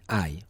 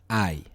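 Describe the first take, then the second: First: The word begins directly with the vowel. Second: The word begins directly with the vowel.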